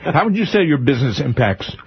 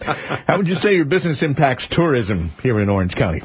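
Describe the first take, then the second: First: Talking through a bite of bacon; words round a mouthful; mouth full. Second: Said in the usual way. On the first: Real, not acted. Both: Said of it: "I can't s-, speak with bacon in my mouth".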